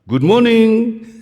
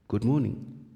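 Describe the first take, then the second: First: It is said loudly and aggressively. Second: It is said softly and plainly.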